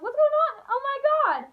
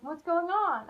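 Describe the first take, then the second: First: High, loud mock panic; freaking out. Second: Said in the usual way. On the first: Child waking to papa's screaming, freaking out. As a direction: shriek it like a panicked kid. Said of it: "I was freaking out".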